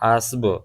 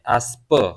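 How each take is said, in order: First: The word ends with a b sound. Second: The word ends with a p sound. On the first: This is the modern spoken form of the word. "आजकल की जो ज़बान फारसी है गुफ्तगू वाली, वो है आस्ब" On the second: This is the older form of the word. "पुरानी फारसी में पे भी आया है"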